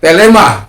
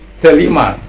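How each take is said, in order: First: The middle vowel sounds like 'e'. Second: The middle vowel sounds like 'i'.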